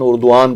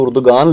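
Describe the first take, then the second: First: No g sound is pronounced in the middle. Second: A g sound is pronounced in the middle. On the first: This is how it is actually read. The speaker calls it right. "उर्दुआन पढ़ा जाता है" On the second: This follows the written spelling. The speaker calls it wrong. "उर्दुगान लिखा जाता है"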